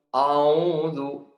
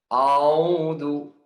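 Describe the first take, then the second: First: The opening hamzah sounds heavy and thick. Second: The opening hamzah sounds heavy and thick.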